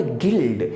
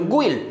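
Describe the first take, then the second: First: गिल्ड with silent u, like gild; correct guild. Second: गुइल्ड with the u sounded, gu-ild; wrong guild. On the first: Teacher gives students the right गिल्ड. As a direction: says गिल्ड cleanly with no u. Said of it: "आप इसे पढ़ेंगे गिल्ड". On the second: Teacher demos the wrong गुइल्ड. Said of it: "तो गुइल्ड गलत है". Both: Shown as a demonstration.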